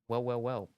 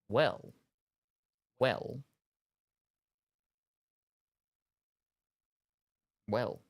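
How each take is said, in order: First: It is said quickly with the words run together. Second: It is said slowly with pauses between words.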